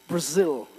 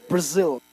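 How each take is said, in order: No difference in how they are said.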